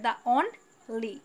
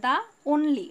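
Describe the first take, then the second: First: "only" broken slowly into on and ly; syllable-by-syllable split. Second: Said in the usual way. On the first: Shown as a demonstration. Teacher splitting a word for students, "only" as on, pause, ly. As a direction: say "only" in two separate pieces, on, then ly. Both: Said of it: "only-কে ভাঙা যায়".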